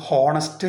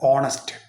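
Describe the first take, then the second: First: The word starts with an h sound. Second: The word starts with a vowel sound. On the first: The speaker calls it wrong. "എച്ചിന്റെ ഉച്ചാരണം കൂട്ടിക്കാണ്ട് ഹോണസ്റ്റ് എന്ന് ഉച്ചരിക്കാൻ പാടില്ല" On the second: The speaker calls it right. "എച്ച് ഇല്ലാതെ ഓന്റെ സൗണ്ടാണ് അവിടെ ആദ്യം വരിക"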